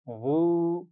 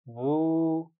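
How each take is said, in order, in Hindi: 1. स्वर को लंबा और सहज खींचा जाता है। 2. स्वर को लंबा और सहज खींचा जाता है।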